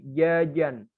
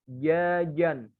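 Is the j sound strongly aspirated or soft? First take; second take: soft; soft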